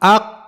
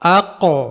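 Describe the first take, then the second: First: The final q stops sharply with no release. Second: The final q releases with a slight echo. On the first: "कलकला के बगैर" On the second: "कलकला के साथ"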